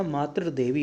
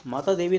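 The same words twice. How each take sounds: First: मातृ देवी with "tr"; corrected form. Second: माता देवी with long "taa"; incorrect form. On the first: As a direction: say मातृ देवी as "maatr devi". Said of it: "मातृ देवी होता है". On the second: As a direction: say माता देवी as "maataa devi". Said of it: "माता देवी नहीं होता". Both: Shown as a demonstration.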